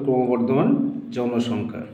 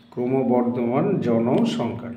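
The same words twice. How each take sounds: First: Said in the usual way. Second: ক্রমবর্ধমান জনসংখ্যা said slowly, syllable by syllable; slow dictation. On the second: Shown as a demonstration. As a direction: spell out ক্রমবর্ধমান জনসংখ্যা slowly for students to write. (ধীরে ধীরে বলা ক্রমবর্ধমান জনসংখ্যা) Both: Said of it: "সেটি উত্তর হবে".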